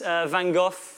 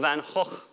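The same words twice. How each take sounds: First: The name is said in a plain English way. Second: The name is said in its native Dutch way.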